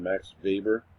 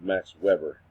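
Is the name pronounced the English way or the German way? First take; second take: German; English. First: The name is pronounced the German way. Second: The name is pronounced the English way. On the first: The speaker calls it right. "it's German, and uh, I had to retrain myself to call him Max Weber" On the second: The speaker calls it wrong. "instead of Max Weber"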